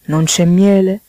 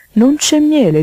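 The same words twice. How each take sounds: First: Said in the usual way. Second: High, loud insistent toad; pressing, raised-voice question. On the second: Acted. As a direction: demand it, jumping up in pitch and volume.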